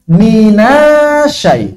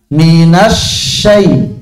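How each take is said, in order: First: The doubled sh sound is rushed and short. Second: The doubled sh sound is held and unhurried. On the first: The speaker calls it wrong. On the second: The speaker calls it right.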